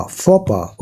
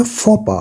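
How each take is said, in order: First: फोपा again as fo-pa, softer and slower; faux pas repeated. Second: फोपा said fo-pa, silent x and s at the end; faux pas said right. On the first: Teacher repeating it for students, soft fo-pa. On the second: Teacher showing students the French pronunciation, fo-pa. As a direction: say फोपा as fo-pa with no x sound. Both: Shown as a demonstration. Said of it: "इसको हम बोलते हैं फोपा".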